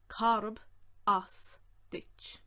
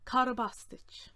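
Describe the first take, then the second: First: Each word on its own; separated words, carefully sounded out; slow breakdown. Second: Said in the usual way. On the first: Shown as a demonstration. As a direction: dictate it slowly with pauses.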